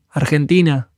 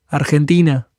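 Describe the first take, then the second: No difference in how they are said.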